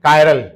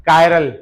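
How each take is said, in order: Both takes have the same delivery.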